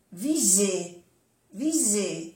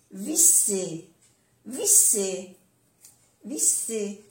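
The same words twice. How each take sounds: First: "viser" with a voiced z; soft Z. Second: "visser" with an unvoiced s; double S. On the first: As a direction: say "viser" with a buzz in the middle. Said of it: "se pronuncia como una Z suave". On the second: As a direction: say "visser" with a clear hiss in the middle. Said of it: "una S o doble S". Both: Shown as a demonstration.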